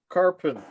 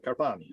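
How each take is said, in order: First: Carpin, cut to two syllables without the final "ee"; mispronounced name. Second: Carpani said low, as car-PAH-nee; corrected pronunciation. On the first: Chair reading out a public attendee's name, mispronounced as Carpin. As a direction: say "Carpin", losing the name's last syllable. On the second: Chair repeating the attendee's name after correction, pronounced Carpani. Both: Real, not acted. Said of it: "sorry for mispronouncing your name".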